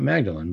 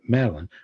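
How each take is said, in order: First: The name is pronounced with a hard g sound. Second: The name is pronounced without any g sound. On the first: The speaker calls it wrong. "not Magdalene" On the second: The speaker calls it right. "but Madeline"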